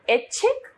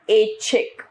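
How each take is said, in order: First: ऐच्छिक with a short, high first vowel; wrong pronunciation. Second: Said in the usual way. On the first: Shown as a demonstration. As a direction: say ऐच्छिक as quick ech-chhik, rising. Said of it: "अशुद्ध रूप". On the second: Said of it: "इसका शुद्ध रूप".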